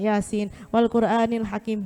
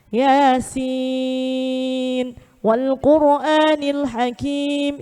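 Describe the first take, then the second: First: The first word's vowel is rushed and short. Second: The first word's vowel is held long. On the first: The speaker calls it wrong. "ngejar cepet ... Itu kalau kaidah tajwidnya salah" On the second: The speaker calls it right. "Jadi enam ketukan"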